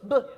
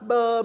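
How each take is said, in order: First: The consonant is short with no vowel after. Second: The consonant has an added 'uh' vowel after. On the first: The speaker calls it right. "B says b, b, b. ... So clear and crisp" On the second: The speaker calls it wrong. "that's actually a B and a U ... you can't do that"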